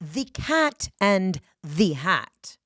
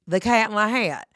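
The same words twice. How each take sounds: First: It is crisply enunciated and projected with energy. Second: It is mumbled flatly with little energy. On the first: The reader is putting on a stage performance. The speaker calls it right. "enunciate and pronounce my words and really do a vocal warm up" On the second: The reader is bored and making no effort. The speaker calls it wrong. "all the lazy fuckers are going"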